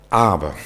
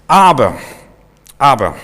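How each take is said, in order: First: Said in the usual way. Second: Loud objection. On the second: Retold or imitated. Preacher shows how the spies' "aber" turned the people, shouting "aber". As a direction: hurl the word "aber" like a verdict. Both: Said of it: "was so ein Wörtchen aber auslösen kann".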